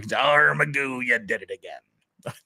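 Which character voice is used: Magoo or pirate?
pirate. It is said in a put-on pirate voice. "or a pirate voice"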